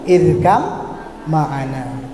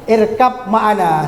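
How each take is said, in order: First: The b merges into an m sound. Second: The b sound is kept before ma'ana. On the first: This is how it is recited by the recitation rules. "di dalam tajwid dibaca irkam ma'ana" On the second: This is how the word is written. "Sebenarnya kan begitu"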